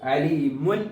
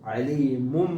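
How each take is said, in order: First: The word ends with an n sound. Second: The word ends with an m sound. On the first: The speaker calls it wrong. "അലീമുൻ എന്ന് പറയാതെ" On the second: The speaker calls it right. "അലീമും ബിദ അങ്ങനെ വായിക്കണം"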